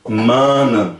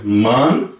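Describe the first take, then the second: First: Manan with the same vowel as man; plural manan. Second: Man said short, one syllable; plain singular man. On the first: Teacher models plural manan right after man. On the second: Teacher models man, the singular form. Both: Shown as a demonstration. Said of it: "Não muda nada".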